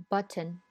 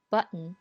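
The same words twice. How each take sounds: First: British button with a clear t; British English. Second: American button with a glottal stop; American English. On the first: Teacher reads button in a British accent. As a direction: button with the t released, British style. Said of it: "我先读英音". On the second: Teacher reads button in an American accent. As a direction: button said with the t cut off in the throat. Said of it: "再读美音". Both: Shown as a demonstration.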